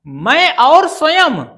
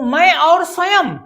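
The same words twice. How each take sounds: First: "मैं और स्वयं" said slowly, leaning on और; slow, louder "और" to show the phrase doesn't work; testing the phrase. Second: Said in the usual way. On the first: Shown as a demonstration. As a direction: weigh और slowly, as if checking whether it sounds right. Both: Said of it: "यदि यहां स्वयं लिख करके इसका उच्चारण करें".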